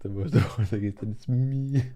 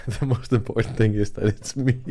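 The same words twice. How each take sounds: First: Put-on a Danish accent broken up by laughter, louder; Danish accent, laughing. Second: Put-on a Danish accent from an overexcited speaker, much louder, with a laugh. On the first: Repeating the accent bit for viewers, laughing through it. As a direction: try to hold the overexcited Dane but keep laughing. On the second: Mimicking the Danish accent for stream viewers, loud and excited. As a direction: play an overexcited Dane who can't wait to talk. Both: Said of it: "they sound like this".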